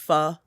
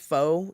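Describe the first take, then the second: First: The vowel is short, like in 'fun'. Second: The vowel is long, like in 'foe'. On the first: The speaker calls it right. "It's pho. So hence the play on words" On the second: The speaker calls it wrong. "that's actually not pronounced pho, even though everyone says that"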